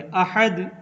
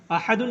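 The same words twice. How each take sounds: First: अहद ending silent on d; अहद, सही रुकना; stopping form. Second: अहदुन with the full un ending; अहदुन, गलत; wrong ending shown. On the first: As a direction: stop short on अहद. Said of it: "अहदुन नहीं पढ़ेंगे, अहद". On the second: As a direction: sound out अहदुन with its nunation. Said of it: "अहदुन नहीं पढ़ेंगे". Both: Shown as a demonstration.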